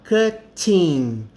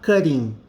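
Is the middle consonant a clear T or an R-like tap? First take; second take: clear T; R-like tap. First: The middle consonant is a clear T sound. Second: The middle consonant sounds like a quick R. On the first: "Ao invés de eu falar cutting" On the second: "você vai falar cutting"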